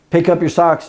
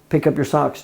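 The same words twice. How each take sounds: First: The voice is raised and pitched high. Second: The voice is calm and at normal pitch.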